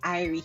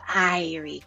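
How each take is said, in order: First: It is said the authentic Jamaican way. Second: It is said as a caricatured Jamaican imitation.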